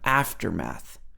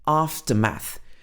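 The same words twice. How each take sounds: First: The same vowel sound twice, American accent. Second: Two different vowel sounds, British accent. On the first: "It's actually the same sound" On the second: "So this has got two vowel sounds"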